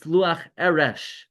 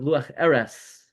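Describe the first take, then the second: First: The last word ends with an sh sound. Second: The last word ends with an s sound. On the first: The speaker calls it right. "It's Luach Eresh from Areshes Sifasayim" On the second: The speaker calls it wrong. "many people mispronounce it. They pronounce it"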